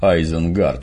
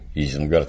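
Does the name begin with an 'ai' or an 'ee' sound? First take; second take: ai; ee. First: The name begins with an 'ai' sound. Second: The name begins with an 'ee' sound. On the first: This is how the original pronounces the name. "И самый ужас – Айзенгард вместо Изенгарда" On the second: This is the familiar local form of the name. "Изенгард – это что, Изя, что ли"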